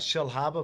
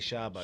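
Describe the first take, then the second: First: The name is said in full, two clear words. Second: The name is squeezed into one short word. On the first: "So uh, Shell Harbour" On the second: "but we'll just say Sharba"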